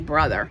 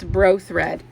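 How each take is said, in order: First: It is said as the word 'brother'. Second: It is said as 'bro' plus 'thread'. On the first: The speaker calls it wrong. "we want to say brother" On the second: The speaker calls it right. "It's Bro Thread from what I've been told"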